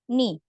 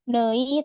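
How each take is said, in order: First: The vowel is a plain i. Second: The vowel is a two-part glide. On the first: The speaker calls it right. "tapi ni" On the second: The speaker calls it wrong. "jadi bukan nei"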